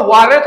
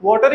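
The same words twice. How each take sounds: First: वाटर as "WAH-ret", tapped t; American water. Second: वाटर as "WAW-ter", clear t; normal water. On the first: Teacher saying we won't adopt it, वाटर the American way. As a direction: open "ah" in वाटर. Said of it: "वाटर थोड़ी बोलण लग पांगे". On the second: Teacher keeping the normal form, वाटर as "WAW-ter". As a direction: round "aw" in वाटर. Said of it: "normal बोलदे पए". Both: Shown as a demonstration.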